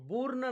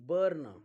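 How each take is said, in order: First: The vowel sounds like 'oo' before the r. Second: The vowel sounds like 'er' before the r. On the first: The speaker calls it wrong. "बुर्न नाही" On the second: The speaker calls it right. "यूचा उच्चार अ होतो"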